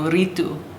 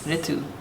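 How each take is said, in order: First: The name is said with a South Indian pronunciation. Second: The name is said with a North Indian pronunciation. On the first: The speaker calls it wrong. "I would want to call you Ritu, but that's not right" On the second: The speaker calls it right. "the real difference is the I, ri, ri, right?"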